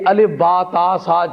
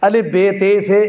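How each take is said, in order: First: The letter names end in an 'a' vowel. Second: The letter names end in an 'e' vowel. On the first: The speaker calls it right. "ये नाम है इनके।" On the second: The speaker calls it wrong. "ये गलत है।"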